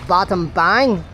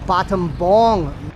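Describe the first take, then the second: First: The last syllable sounds like 'bang'. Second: The last syllable sounds like 'bong'. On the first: It is read the way the spelling suggests in English. The speaker calls it wrong. "how we would pronounce it in English" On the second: It is said the way locals say it. The speaker calls it right. "It's actually pronounced bottom bong"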